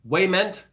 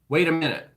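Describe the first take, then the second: First: The phrase is squashed into one short word. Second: The phrase is said as three separate words. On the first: "that one word, wayment" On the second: "That doesn't even sound like wait a minute"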